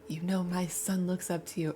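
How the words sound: It is said in a sincere, serious tone.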